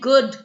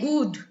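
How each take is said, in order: First: The vowel is short and clipped. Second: The vowel is drawn out and long. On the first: "instead of saying good" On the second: "you pull the sound and then the whole pronunciation changes"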